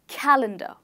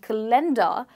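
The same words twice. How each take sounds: First: The stress falls on the first syllable. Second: The stress falls on a later syllable. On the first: The speaker calls it right. "it is stressed on the first syllable" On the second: The speaker calls it wrong. "instead of saying calendar"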